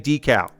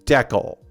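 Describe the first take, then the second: First: It is pronounced the American way. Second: It is pronounced the Canadian way. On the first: "In American English, you say decal" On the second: "many Canadians say decal"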